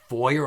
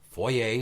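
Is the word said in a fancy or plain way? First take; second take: plain; fancy. First: The word is said in an ordinary, plain way. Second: The word is said in a fancy, affected way.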